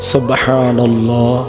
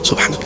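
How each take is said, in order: First: The phrase is said slowly and carefully. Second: The phrase is said quickly and hurriedly. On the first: The speaker calls it right. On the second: The speaker calls it wrong.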